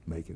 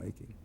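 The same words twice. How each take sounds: First: The final g sound is dropped. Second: The final g sound is pronounced.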